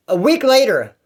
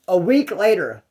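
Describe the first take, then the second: First: WEEK hit higher and louder; emphatic restart. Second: Said in the usual way. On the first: Shown as a demonstration. Storyteller restarts his point, stressing week. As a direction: punch the word week as a fresh start.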